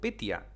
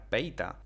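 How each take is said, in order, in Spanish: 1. El nombre se dice como 'Petya'. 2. El nombre se dice como 'Peita'. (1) "digo Petya, y lo voy a seguir repitiendo mal" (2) "Realmente se pronuncia Peita"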